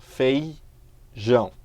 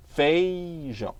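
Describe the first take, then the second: First: "Feijão." very slowly, the fei glide drawn out; slow syllable demo. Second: Said in the usual way. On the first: Shown as a demonstration. Teacher showing a falling diphthong slowly. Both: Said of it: "ditongo que decresce".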